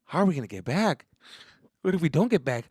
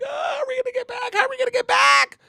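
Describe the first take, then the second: First: Mild, rising anxious question; worried. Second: High panicked mock scream, getting louder; scared screaming. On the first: Retold or imitated. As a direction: ask it with creeping worry. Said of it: "getting a little fucking worried". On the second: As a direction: scream it like a terrified kid. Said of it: "I'm scared".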